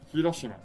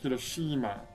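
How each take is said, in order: First: All the vowels are the same length. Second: One vowel is held noticeably long. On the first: The speaker calls it right. "All the same length" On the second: The speaker calls it wrong. "if you say Hiroshima, the E is long, right?"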